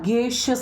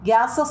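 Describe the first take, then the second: First: It is said like 'gay-shus' with a long a. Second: It is said like 'gassus' with a short a. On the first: The speaker calls it right. "അല്ല ഗേഷ്യസ് എന്നാണ് കേട്ടോ" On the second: The speaker calls it wrong. "നമ്മൾ എന്താ ഗ്യാസസ് എന്നാണോ പറയുന്നത്?"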